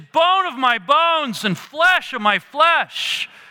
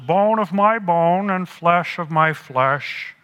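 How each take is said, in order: First: It is said in an excited, joyful tone. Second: It is said in a calm, even tone. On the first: The speaker is overjoyed at what he sees. The speaker calls it right. "I think rather he went, woo!" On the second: The speaker is merely stating a fact. The speaker calls it wrong. "I don't think he said it this way"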